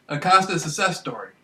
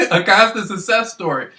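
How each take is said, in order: First: Said in the usual way. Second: Saying it through a laugh. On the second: Real, not acted. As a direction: chuckle while boasting. Laughs mid-phrase, boasting.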